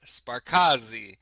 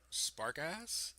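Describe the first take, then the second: First: The word ends on a vowel sound. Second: The word ends on a consonant sound. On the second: "that's not how you pronounce that"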